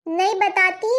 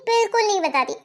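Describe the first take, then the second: First: Said in the usual way. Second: बिल्कुल hit firmly, then falling; stress on बिल्कुल. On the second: Acted. Shabnam insists to aunty, stress on बिल्कुल. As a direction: lean hard into बिल्कुल.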